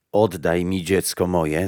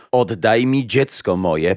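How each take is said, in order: First: Restrained first demand, near narrating voice; mild crying out. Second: Louder, more forceful plea; insistent repeated demand. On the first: Mother asks Death for her child back, mildly crying out. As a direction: call out with understated urgency. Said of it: "zawołała matka". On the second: Mother repeats her demand to Death, loud and insistent. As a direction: raise the voice and insist. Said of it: "powtórzyła". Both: A narrator's reading.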